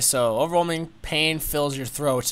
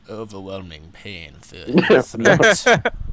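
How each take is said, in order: First: It is read in a plain, normal voice. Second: It is read in a dramatic put-on voice.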